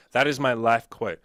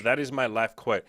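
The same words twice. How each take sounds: First: "That is my life quote" said louder and slower, leaning on each word; emphatic repeat. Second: Said in the usual way. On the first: Shown as a demonstration.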